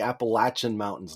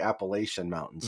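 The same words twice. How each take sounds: First: "Appalachian" as "app-uh-LATCH-un"; "latch" in the middle of "Appalachian"; local pronunciation. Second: "Appalachian" as "app-uh-LAY-shun"; "lay-shun" ending on "Appalachian"; rejected pronunciation. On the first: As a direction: say "Appalachian" with a short a and "tch". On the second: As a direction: say "Appalachian" with long a and "sh". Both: Shown as a demonstration. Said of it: "not the Appalachian Mountains".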